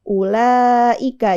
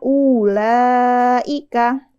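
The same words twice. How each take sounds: First: The vowel after the first hamzah is short. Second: The vowel after the first hamzah is long. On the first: The speaker calls it right. "yang benar bacaannya pendek aja" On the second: The speaker calls it wrong. "Harusnya harusnya dibacanya ulaika"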